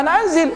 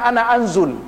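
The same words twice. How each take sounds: First: "anzil" with an i in the final syllable, raised high; the proper "anzil", clearly -zil; correct pronunciation. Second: "anzul" with an u in the final syllable, as the wrong form; the mistaken "anzul", ending in -zul; wrong pronunciation. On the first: Shown as a demonstration. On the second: Retold or imitated. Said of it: "Kalau dia mengatakan".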